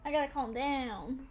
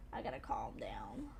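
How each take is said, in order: First: Said in the usual way. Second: Breathy whisper to herself, much lower; soft self-soothing whisper. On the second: Real, not acted. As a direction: whisper it to calm yourself down. Calming herself after scary game.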